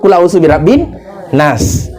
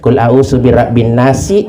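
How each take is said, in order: First: The final word stops cleanly on the s sound. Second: The final word ends with an added i vowel. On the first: The speaker calls it right. "harus kan wakaf" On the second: The speaker calls it wrong. "Ternyata dia tidak wakaf"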